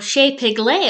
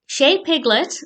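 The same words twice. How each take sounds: First: The name is said imitating a character's pronunciation. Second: The name is said in the usual way.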